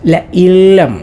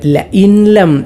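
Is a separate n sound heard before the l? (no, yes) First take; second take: no; yes. First: The n merges into the l without nasal. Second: The n is pronounced clearly before the l. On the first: The speaker calls it right. "ഇദ്ഗാം ബിലാ ഗുന്നയാണ് ചെയ്യേണ്ടത്" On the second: The speaker calls it wrong. "ആ പാരായണം തെറ്റാണ്"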